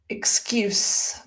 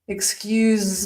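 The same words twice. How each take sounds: First: The final consonant is an s sound. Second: The final consonant is a z sound. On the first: It is a noun. "when we've got the s sound, we've got an adjective or a noun" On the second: It is a verb. "The z pronunciation, you've got a verb"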